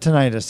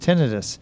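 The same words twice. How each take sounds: First: The stress is on the second syllable. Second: The stress is on the first syllable. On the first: The speaker calls it wrong. "not tinnitus" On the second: The speaker calls it right. "it's tinnitus. It always has been tinnitus"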